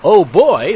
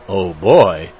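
First: It is said in a happy, pleased tone. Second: It is said in a concerned, dismayed tone. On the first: The speaker is pleased about something. "If you say Oh boy like this, it means you're happy" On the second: The speaker is worried about something. "it means you're concerned or dismayed about something"

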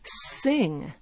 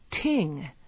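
First: The word begins with an S sound. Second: The word begins with a T sound.

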